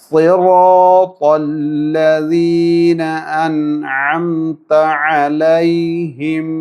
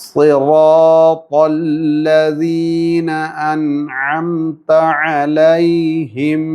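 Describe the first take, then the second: No difference in how they are said.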